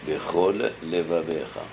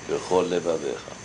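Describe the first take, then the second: First: Both L sounds are pronounced separately. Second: The two L sounds merge into one. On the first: The speaker calls it right. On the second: The speaker calls it wrong.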